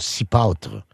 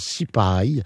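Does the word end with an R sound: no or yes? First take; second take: yes; no. First: The word ends with an R sound. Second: The word ends without an R sound. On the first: "c'est l'accent de Ange Gardien" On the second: "qui se prononce souvent cipaille"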